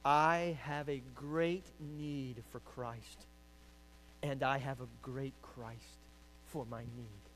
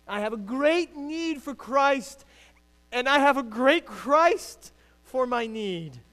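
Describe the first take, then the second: First: Quoting Spurgeon. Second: Loud, high, slow preaching of the quote; preached with force. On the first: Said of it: "Spurgeon says it". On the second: Preacher driving the Spurgeon quote home to the congregation, loud and slow. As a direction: proclaim it slowly and loudly. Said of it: "You got that?". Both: Shown as a demonstration.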